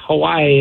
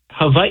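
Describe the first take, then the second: First: "Hawaii" with an English W; common mispronunciation. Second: "Hawaii" with the W said as V; Hawaiian pronunciation. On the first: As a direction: say "Hawaii" as huh-WHY-ee. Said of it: "we're also pronouncing Hawaii wrong". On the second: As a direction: say "Hawaii" as huh-VAH-ee. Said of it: "they sound like V's". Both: Shown as a demonstration.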